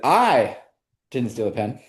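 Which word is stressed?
I. The word 'I' carries the main stress. Someone else stole it. "Now it sounds like I didn't, but I know who did"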